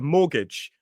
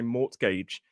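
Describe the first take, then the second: First: The T sound is silent. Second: The T sound is clearly pronounced. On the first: The speaker calls it right. "notice the T is silent in mortgage" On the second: The speaker calls it wrong. "We don't say mortgage"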